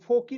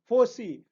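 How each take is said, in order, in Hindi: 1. बीच का व्यंजन k की ध्वनि है। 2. बीच का व्यंजन s की ध्वनि है।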